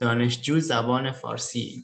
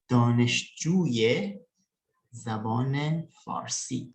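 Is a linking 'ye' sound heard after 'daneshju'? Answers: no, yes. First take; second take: no; yes. First: No linking sound joins the first two words. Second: A linking 'ye' sound joins the first two words. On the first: The speaker calls it wrong. "itu kurang tepat aja" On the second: The speaker calls it right. "maka untuk menggabungkan kata tersebut kepada kata berikutnya ada tambahan ya"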